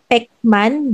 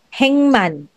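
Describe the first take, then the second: First: The first syllable ends in a k sound. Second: The first syllable ends in an ng sound. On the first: The speaker calls it wrong. "hindi siya pekman" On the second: The speaker calls it right. "but it will be hengman"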